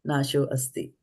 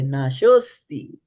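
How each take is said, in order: First: The two words are kept apart. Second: The two words are merged into one. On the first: The speaker calls it wrong. "we're not going to say Nasho Asti" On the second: The speaker calls it right. "We are going to say Nashosti"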